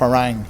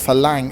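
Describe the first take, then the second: First: The second consonant is an R sound. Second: The second consonant is an L sound. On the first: "instead of Farang" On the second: "he speaks it like a Thai. He says Falang"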